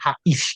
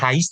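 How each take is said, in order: First: The a and i are split into two syllables. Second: The a and i run together in one syllable. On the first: The speaker calls it right. "Antara A dengan I-nya lebih lebih putus lagi" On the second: The speaker calls it wrong. "jangan Hais"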